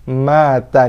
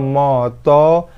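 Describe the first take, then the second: First: The vowels are light, thin and open. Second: The vowels are dark, thick and rounded. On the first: The speaker calls it right. "mata nipiskan" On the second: The speaker calls it wrong. "bukan moto"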